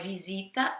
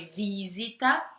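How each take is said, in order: First: The stress is on the second syllable. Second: The stress is on the first syllable. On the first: The speaker calls it wrong. "não é visita" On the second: The speaker calls it right. "é no i, ... é visita"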